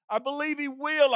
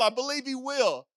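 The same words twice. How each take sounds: First: "will" lands with a falling weight; preacher assuring the congregation, weight on "will"; stress on will. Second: "I" pushed forward, "will" lighter; preacher repeating it as his own conviction, weight on "I"; stress on I. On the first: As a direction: lean on "will" to close it. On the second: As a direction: lean on "I" as personal testimony. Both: Shown as a demonstration.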